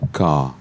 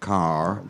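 First: The final R sound is silent. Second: The final R sound is pronounced. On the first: "But in English is car. ... you don't pronounce the R" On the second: "again if you're American"

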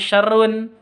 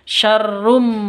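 First: The word ends with a clear n sound. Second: The ending n merges into an m sound. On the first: The speaker calls it wrong. "bukan syarrun" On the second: The speaker calls it right. "tapi syarrum"

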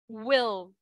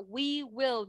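First: The words are contracted into one syllable. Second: Both words are said in full. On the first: "Nhưng mà viết tắt lại thì mình sẽ đọc là will" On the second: "Còn nếu mà viết như thế này thì mình sẽ đọc là we will"

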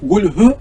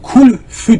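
First: The second syllable starts with an h sound. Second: The second syllable starts with an f sound. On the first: The speaker calls it right. "Hu orada Allah" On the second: The speaker calls it wrong. "kulfü diyor"

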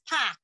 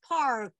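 First: The R sound is dropped after the vowel. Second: The R sound is clearly pronounced after the vowel. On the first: This is how it is said in Boston. "everyone in my family says park" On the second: This is how it is said in Hebrew and New York. "You got to pronounce that R"

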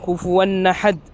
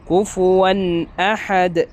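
First: The words run together without a glottal stop. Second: A clear glottal stop comes before ahad. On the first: The speaker calls it wrong. "ഹംസ അവിടെ ഇല്ലാതെയാണ് ഉച്ചരിക്കുന്നത്" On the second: The speaker calls it right. "ശരിയായ രൂപം"

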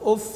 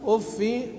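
First: The word ends in an a vowel. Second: The word ends in a plain i vowel. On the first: "يعقوب فذكره بفتح الفاء" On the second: "بالكسر ها بدون تنوين"

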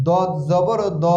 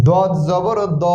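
The two takes are said the same way.

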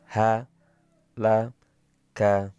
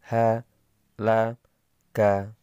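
Both takes have the same delivery.

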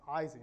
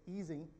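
First: The name begins with an 'eye' vowel. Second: The name begins with an 'ee' vowel. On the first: This is an English-style pronunciation. The speaker calls it wrong. "not Ising" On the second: This is the original German pronunciation. The speaker calls it right. "We should say easing"

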